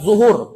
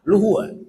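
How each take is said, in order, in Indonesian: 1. Kata ini diawali bunyi z. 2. Kata ini diawali bunyi l.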